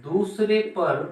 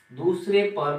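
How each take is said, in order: First: दूसरे पर drawn out slowly and higher; slow dictation. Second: Said in the usual way. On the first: Shown as a demonstration. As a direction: spell out दूसरे पर for the notes. (दूसरे पर धीरे और ऊँचे स्वर में)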